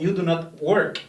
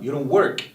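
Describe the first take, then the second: First: The negative is said as two full words. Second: The negative is contracted into one syllable. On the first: "O you do not work" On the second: "It sounds more natural"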